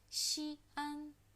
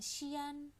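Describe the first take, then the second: First: The sounds i and a form two separate syllables. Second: The sounds i and a merge into one syllable. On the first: The speaker calls it right. "Jadi dia bukan digabung ya bacanya antara huruf i dan huruf a" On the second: The speaker calls it wrong. "jangan xian"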